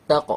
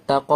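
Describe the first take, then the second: First: তা ক with a short bounce on ক; clipped echoing q ending on তা ক; qalqalah. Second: তা ক with the ক drawn out; wrong take, lengthened vowel ending তা ক; over-voweled qalqalah. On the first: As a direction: release ক briefly, without a full vowel. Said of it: "তা ক এভাবে". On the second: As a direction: give ক a full vowel instead of a bounce. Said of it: "এভাবে বলবো না". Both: Shown as a demonstration.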